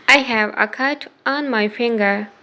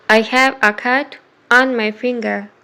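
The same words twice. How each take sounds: The two takes are said the same way.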